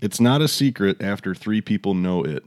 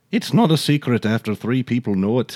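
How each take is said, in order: First: Said in the usual way. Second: Put-on lightly lilting amateur Irish accent; playful go at an Irish accent; attempted Irish accent. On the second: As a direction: try the saying in an Irish brogue. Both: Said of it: "That was pretty good".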